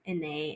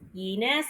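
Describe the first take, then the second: First: The name is said French-style, like the French Inès. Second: The name is said English-style, starting with 'yeh'. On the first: The name is read as a French name. The speaker calls it right. "I'm gonna gonna pronounce my middle name as Ine" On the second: The Chinese name was given an English ending. The speaker calls it wrong. "the way they pronounced it was Yenis"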